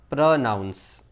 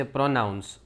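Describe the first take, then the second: First: પ્રનાઉન્સ slowly, with a short "pruh"; correct pronunciation. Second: પ્રોનાઉન્સ with a full "pro" at the start; common mispronunciation. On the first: Teacher correcting learners, careful correct pronunciation. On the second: Teacher showing how people say it, common mispronunciation. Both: Shown as a demonstration. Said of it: "પ્રોનાઉન્સ નહીં".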